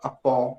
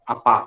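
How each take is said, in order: First: The vowel after p is between 'ah' and 'oh'. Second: The vowel after p is a plain open 'ah'. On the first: "चंद्रमा लगा हुआ है तो वो होगा अपौ" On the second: "चंद्रमा हट गया तो अपा हो जाएगा"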